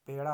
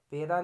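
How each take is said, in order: First: Said in the usual way. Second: पेड़ा said loudly as 'peraa'; plain r in पेड़ा; r for flap. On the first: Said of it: "होता है". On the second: Shown as a demonstration. Teacher showing a mistake, पेड़ा with simple r. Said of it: "नहीं होता".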